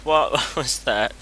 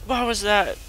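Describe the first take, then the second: First: Laughing repeat. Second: Sharp high startled question. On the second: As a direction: jump at the sound and ask. Startled by a noise. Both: Real, not acted.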